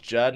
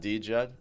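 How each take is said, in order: First: It begins directly with a J sound. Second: It begins with a separate D sound. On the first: The speaker calls it right. "It's pronounced Jed" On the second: The speaker calls it wrong. "not D Jed"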